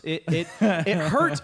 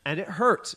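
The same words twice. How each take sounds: First: "hurt" drawn out slowly and falling, stressed; slow emphatic hurt. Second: Said in the usual way. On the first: Real, not acted. Reviewer stressing how much the movie hurt, slow falling "hurt". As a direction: lean on "hurt" and slow the repeat.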